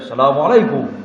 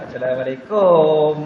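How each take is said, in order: First: Said Egyptian-style, with a short final 'kum'. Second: Said Malaysian-style, with a long final 'kum'.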